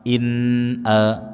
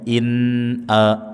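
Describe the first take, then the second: First: The n is pronounced clearly and steadily. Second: The same.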